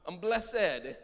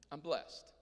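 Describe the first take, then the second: First: Blessed is said as two syllables. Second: Blessed is said as one syllable. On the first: It is a lasting state of being. "It's two syllables" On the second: It is a short-term feeling of being well. "It's sort of a momentary or a relatively short-term testimony"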